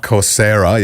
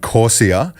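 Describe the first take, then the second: First: "Coursera" stressed on "sair"; corrected pronunciation. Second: "Coursera" with the r dropped from its ending, like "Coursia"; mispronounced name. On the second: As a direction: say "Coursera" as COR-see-uh. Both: Real, not acted. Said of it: "yeah, sorry".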